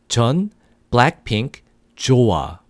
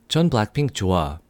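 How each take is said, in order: First: It is said at a normal, slower pace. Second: It is said a little faster.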